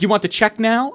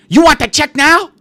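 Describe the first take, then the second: First: Said in the usual way. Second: High, loud shouted question; imitated waitress screaming in someone's face. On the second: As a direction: yell it as a pushy waitress demanding an answer. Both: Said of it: "Screaming in her face".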